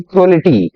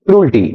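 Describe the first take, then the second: First: "क्रूअल्टी" with an extra vowel, kroo-al-tee; "क्रूअल्टी" the wrong way, splitting oo-al; mispronounced cruelty. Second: "क्रूल्टी" in two syllables, krool-tee; "क्रूल्टी" with no vowel between oo and l; correct cruelty pronunciation. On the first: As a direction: say "क्रूअल्टी" in three syllables. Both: Shown as a demonstration. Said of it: "क्रूल्टी ना कि क्रूअल्टी".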